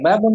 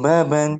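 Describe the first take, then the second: First: The word ends with an 'un' sound. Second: The word ends with an 'an' sound. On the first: The speaker calls it wrong. "Bukan babun, jangan bilang babun" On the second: The speaker calls it right.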